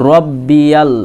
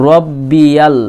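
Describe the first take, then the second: Both takes have the same delivery.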